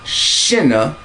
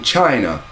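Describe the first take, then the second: First: The word begins with a soft 'sh' sound. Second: The word begins with a hard 'ch' sound. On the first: This is the older form of the name. "the Shin have changed to the Shine of China" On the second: This is how it is said today. "as we pronounce it"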